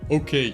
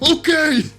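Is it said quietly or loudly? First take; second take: quietly; loudly. First: It is said at a normal, quiet volume. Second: It is said loudly, as if shouting.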